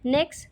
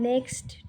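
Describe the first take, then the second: First: The final t sound is dropped. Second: The final t sound is pronounced. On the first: The speaker calls it right. "এর সঠিক উচ্চারণ হবে" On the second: The speaker calls it wrong. "এই উচ্চারণটা কিন্তু আমরা ছোট থেকে শিখে আসছি ... আমরা সহজেই লাস্টের টিটা উচ্চারণ করে যাচ্ছি"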